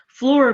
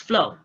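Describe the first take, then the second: First: The final r is clearly pronounced. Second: The final r is left off.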